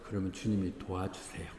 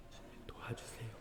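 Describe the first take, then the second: First: Said in the usual way. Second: "주님이 도와주세요" whispered, no voice at all; whispered echo. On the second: Real, not acted. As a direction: breathe "주님이 도와주세요" as a hushed aside. Whispered repeat of prior line. ("주님이 도와주세요"를 속삭이듯 소리 없이)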